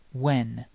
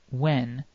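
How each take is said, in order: First: Said in the usual way. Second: "when" drawn out slowly; slow model word. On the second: Shown as a demonstration. Teacher slowing "when" so learners hear the vowel. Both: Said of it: "Try saying when".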